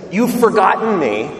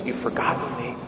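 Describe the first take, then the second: First: God's reproach, mildly emphatic; retold reprimand. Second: Soft, low words of God; quiet reproach. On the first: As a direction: deliver a firm but restrained rebuke to a people. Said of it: "when he reprimands them". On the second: Retold or imitated. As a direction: say it gently and privately to someone grieving. Same words to the grieving.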